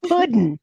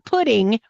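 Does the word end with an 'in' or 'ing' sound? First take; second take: in; ing. First: The word ends with a plain 'in' sound. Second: The word ends with a full 'ing' sound. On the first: The speaker calls it right. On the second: The speaker calls it wrong. "not pudding"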